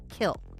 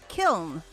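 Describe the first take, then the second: First: The word ends without any N sound. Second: The word ends with an audible N sound. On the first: The speaker calls it right. "you don't pronounce the N" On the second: The speaker calls it wrong. "there's an N on it"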